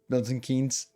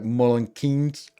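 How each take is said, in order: First: The name is said with clear standard pronunciation. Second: The name is said locally, sounding like 'Mullen'. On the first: "people from Milton Keynes didn't pronounce it Milton Keynes" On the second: "It it was like Mullen Keynes"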